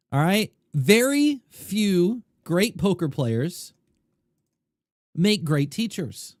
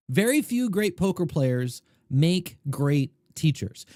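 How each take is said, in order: First: Slow, every word weighted; slow emphatic statement. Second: Said in the usual way. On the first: Real, not acted. To viewers, stating number one slowly and emphatically. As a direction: spell out the main point slowly.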